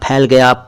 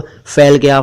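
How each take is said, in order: First: It begins with an aspirated p sound. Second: It begins with an f sound. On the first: The speaker calls it right. "अगर ये बिंदु ना हो तो ये फ है" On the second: The speaker calls it wrong. "बिल्कुल गलत बोलते हैं"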